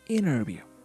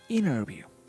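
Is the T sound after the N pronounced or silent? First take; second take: silent; silent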